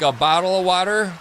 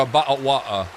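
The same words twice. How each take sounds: First: Said in the usual way. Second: Glottal-stop English accent, t's dropped. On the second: Shown as a demonstration. Streamer puzzling over a chatter's accent claim, English accent. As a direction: put on an English "bottle of water". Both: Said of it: "watered down English accent".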